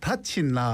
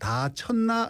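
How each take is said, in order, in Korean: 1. 첫 음절은 높아요. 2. 첫 음절은 낮아요.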